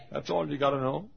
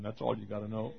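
First: "That's all you gotta know" lifted into a rising question; "know" swung upward, querying; questioning echo. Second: Said in the usual way. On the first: Acted. Acts listener questioning the answer.

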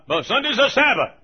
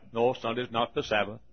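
First: Higher, louder imitation of mother; raised-voice motherly objection; mother insisting. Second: Said in the usual way. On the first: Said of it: "she said".

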